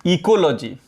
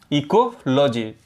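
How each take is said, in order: First: Said in the usual way. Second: ecology drawn out slowly, syllable by syllable; slow careful repeat. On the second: Shown as a demonstration. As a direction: spell out ecology slowly for the class to copy. (Ecology को धीरे-धीरे, साफ़ बोलें) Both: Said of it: "teacher says the term twice".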